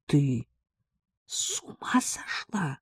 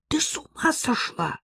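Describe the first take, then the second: First: Slow, soft, whispery shock; breath caught, aghast. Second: High-pitched outraged exclamation; indignant. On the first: Friend hears of the letters, aghast whisper. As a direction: gasp it out in a stunned whisper. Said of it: "У меня перехватило дыхание". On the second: Ella objects to using the maid, indignant. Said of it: "возмутилась Элла". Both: A narrator's reading.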